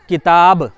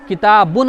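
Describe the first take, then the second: First: The word ends sharply on a bare b. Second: The word ends with a vowel and n. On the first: The reader stops on this word. "उस पर रुकना हो तो किताब" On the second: The reader carries on without stopping. "किताबुन आए"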